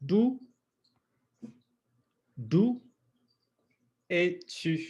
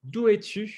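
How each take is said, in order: First: "D'où" high and alone, long pauses, then "es-tu"; sound-by-sound model. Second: "d'où es-tu" as one higher-pitched unit; pronunciation model. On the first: Teacher drilling both sounds, "D'où" then "es-tu" separately. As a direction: break "D'où es-tu" apart, "D'où" repeated higher. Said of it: "there we've got both of those sounds". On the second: Teacher to students at home, pronunciation model. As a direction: model "d'où es-tu" whole and clearly. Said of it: "let's do some pronunciation work". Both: Shown as a demonstration.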